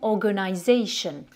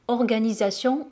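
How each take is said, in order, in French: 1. La fin se prononce comme l'anglais 'shun', pas 'sion'. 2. La fin se prononce comme le français 'sion', pas 'shun'.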